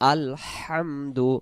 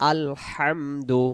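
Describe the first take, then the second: The two takes are said the same way.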